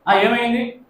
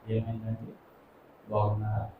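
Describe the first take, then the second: First: It is said curtly and harshly. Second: It is said softly and gently.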